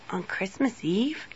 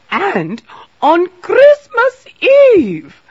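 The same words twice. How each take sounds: First: Soft, questioning little grumble; mildly grumpy. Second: Very high, loud, drawn-out lament; distraught wail. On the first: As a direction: grumble it quietly as a rising question. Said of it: "grumped the little sparrow". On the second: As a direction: wail it slowly in alarm. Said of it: "She was very worried". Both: A narrator's reading.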